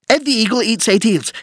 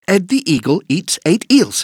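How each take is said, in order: First: It is said at a very fast pace. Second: It is said at a fast pace.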